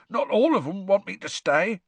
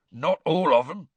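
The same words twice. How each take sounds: First: Mildly hoarse repeat, a bit more pressed; lightly rasped, choked-up Hagrid insisting. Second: A touch of hoarse half-giant, mildly voiced; lightly rasped, choked-up Hagrid. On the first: Acted. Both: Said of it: "said Hagrid hoarsely".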